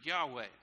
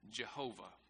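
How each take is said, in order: First: The name is said as Yahweh. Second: The name is said as Jehovah. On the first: The speaker calls it right. "that's it in Hebrew" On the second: The speaker calls it wrong. "we added the wrong vowels, and we pronounced that Jehovah"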